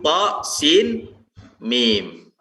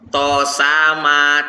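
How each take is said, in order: First: Each letter is read by its full name. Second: The letters are read together as one word. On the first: The speaker calls it right. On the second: The speaker calls it wrong.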